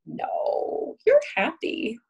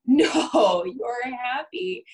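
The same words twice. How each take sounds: First: Lightly mocking contradiction, pitched up; dismissive denial. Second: Shouted no, then a drawn-out, slow, high you're happy; mock insistent denial. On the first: Therapist mock-contradicting a client's anger, light and dismissive. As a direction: brush the feeling off as if correcting them. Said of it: "and me saying". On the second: Therapist parodying denying an angry client, loud mock insistence. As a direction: overrule them, hammed-up and insistent. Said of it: "And me going".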